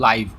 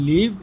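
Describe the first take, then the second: First: The vowel is a long 'eye' sound. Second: The vowel is a short 'i' sound. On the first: Happening in real time, as at an event. "আর একটা হলো লাইভ" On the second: To reside somewhere. "একটা হলো লিভ"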